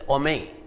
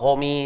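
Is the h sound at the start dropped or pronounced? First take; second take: dropped; pronounced. First: The h sound at the start is dropped. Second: The word begins with a clear h sound. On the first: "They just say ome" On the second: "they don't pronounce it as uh, homie and all that"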